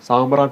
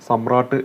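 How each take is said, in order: First: The first vowel is long. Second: The first vowel is short. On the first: The speaker calls it wrong. "എന്ന് പറയണ്ട" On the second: The speaker calls it right. "എന്ന് പറഞ്ഞാൽ മതി"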